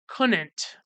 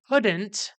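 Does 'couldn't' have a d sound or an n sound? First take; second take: n sound; d sound. First: The middle consonant is replaced by an n sound. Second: The middle consonant is a clear d sound. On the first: The speaker calls it wrong. "just replacing the D with another N or something" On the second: The speaker calls it right. "instead of saying couldn't"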